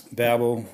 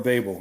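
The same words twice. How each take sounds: First: Babel said BA-bel, short A like "cab"; Babel: first syllable like "bab", stressed. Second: Babel said BAY-bel, long A like "bay"; Babel: first syllable rhymes with "day", stressed; Babel as BAY-bul. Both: Shown as a demonstration. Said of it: "I don't know how it's pronounced".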